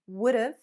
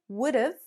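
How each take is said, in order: No difference in how they are said.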